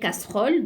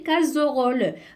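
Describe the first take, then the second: First: The middle consonant is a hissing s sound. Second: The middle consonant is a buzzing z sound. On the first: The speaker calls it right. "je dois mettre deux S pour entendre le son S et éviter le son Z" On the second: The speaker calls it wrong. "si j'élimine ou bien je supprime un seul S, elle va se prononcer casserole"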